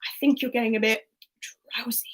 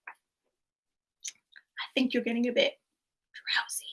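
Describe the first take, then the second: First: Said in the usual way. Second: Slow, softer, drowsy lull; slow drowsy voice trailing into a whisper; sleepy hypnotic read. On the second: Shown as a demonstration. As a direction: lull them to sleep on the last word. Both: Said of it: "Quote number one is".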